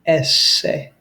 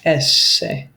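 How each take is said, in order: First: The middle s sound is held long. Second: The middle s sound is held long.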